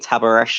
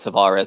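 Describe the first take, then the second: First: The v sounds like b; ends in sh. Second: The v is a clear v; ends in s. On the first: This is how the player himself says it. "in Spanish and Portuguese, uh, he'll say Tabaresh" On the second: This is how people in England say it. "how we'll say Tavares. That will be his name in England"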